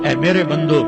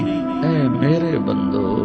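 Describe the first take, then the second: First: It is said in a stern, flat tone. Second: It is said in a soft, loving tone. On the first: The speaker calls it wrong. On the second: The speaker calls it right.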